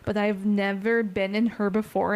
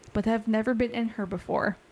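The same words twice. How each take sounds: First: It is read in a plain, innocent tone. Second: It is read with a suggestive, innuendo-laden tone. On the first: The line is only about the ship. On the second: The line hints at something sexual.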